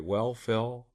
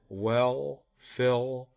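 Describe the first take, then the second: First: The dark final L is vocalized less strongly. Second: The dark final L is strongly vocalized. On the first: "And I could even do it less strongly" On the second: "So I'll put it at the end of a word"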